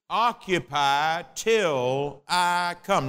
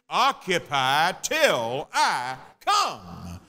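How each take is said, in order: First: It is said in an ordinary speaking voice. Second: It is said in a booming preacher's voice.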